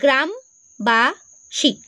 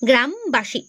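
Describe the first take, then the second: First: The word is split with a break between parts. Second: The word is said smoothly in one go. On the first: "প্রথমে উচ্চারণ কি করছি, গ্রাম, তারপর কি করছি, বাসী" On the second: "উচ্চারণ করো আমার সঙ্গে সঙ্গে"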